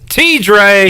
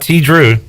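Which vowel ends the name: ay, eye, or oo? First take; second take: ay; oo. First: The name ends with an 'ay' vowel. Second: The name ends with an 'oo' vowel. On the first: The speaker calls it right. "It's D J T Dre" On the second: The speaker calls it wrong. "It's not T Drew"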